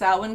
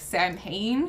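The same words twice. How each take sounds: First: It is said in the traditional Gaelic way. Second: It is said following the English spelling. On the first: "that is how it's pronounced" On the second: "It's spelled like Samhain"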